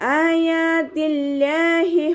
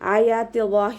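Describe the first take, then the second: First: The l sound is low and light. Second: The l sound is heavy and full. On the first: The speaker calls it right. "ലാമിനെ താഴ്ത്തി ഉച്ചരിക്കുക, ലൈറ്റാക്കി കൊടുക്കുക" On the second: The speaker calls it wrong. "എന്ന് ഓതരുത്"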